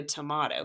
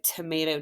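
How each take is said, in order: First: "tomato" with an open "ah", "to-MAH-to", softer; tomato with ah sound. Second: "tomato" with a long A, "to-MAY-to". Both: Shown as a demonstration. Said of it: "It's like tomato, tomato".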